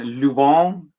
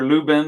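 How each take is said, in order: First: The name is said with French pronunciation. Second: The name is said with non-French pronunciation.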